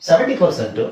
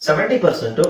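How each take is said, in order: Both takes have the same delivery.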